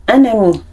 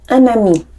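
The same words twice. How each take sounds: Both takes have the same delivery.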